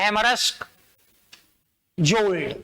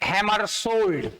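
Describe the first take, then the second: First: The name is said as hammarsk-jold, with a k. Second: The name is said as hammer-shold, without a k. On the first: The speaker calls it wrong. "नहीं पढ़ा जाता है, गलत परंपरा" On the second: The speaker calls it right. "बोला यही जाता है"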